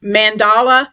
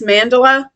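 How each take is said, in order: First: "Mandala" said man-DAH-luh; alternative pronunciation. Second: "mandala" stressed MAN-duh-luh; first-syllable stress. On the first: Vlogger testing the yarn's name, "Mandala" as man-DAH-luh. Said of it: "Is it mandala or mandala?". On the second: Vlogger naming her yarn, "mandala" as MAN-duh-luh. Tries two pronunciations of yarn name. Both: Shown as a demonstration.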